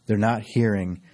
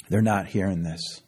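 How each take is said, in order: First: They're pressed a little harder, falling at the end; stress on they're. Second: Said in the usual way. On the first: Shown as a demonstration. Preacher insisting to the congregation, stress on They're. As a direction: lean on They're.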